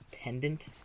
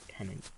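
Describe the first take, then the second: First: A clear D sound is heard after the N. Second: No D sound is heard after the N. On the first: "I say the D sound" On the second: "I don't say the D"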